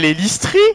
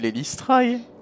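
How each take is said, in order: First: The name is pronounced the French way. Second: The name is pronounced the English way. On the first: The speaker calls it wrong. "je le prononçais en bon François français" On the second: The speaker calls it right. "tu le prononces mal là son pseudo"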